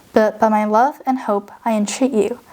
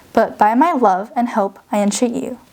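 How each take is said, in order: Both takes have the same delivery.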